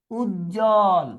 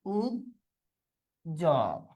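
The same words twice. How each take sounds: First: Said in the usual way. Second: Ujjwal low and soft, as "uj ... jol"; long pause inside Ujjwal; syllable by syllable. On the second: Shown as a demonstration. Teacher dictating to students, syllable by syllable.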